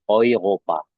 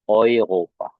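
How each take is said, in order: Both takes have the same delivery.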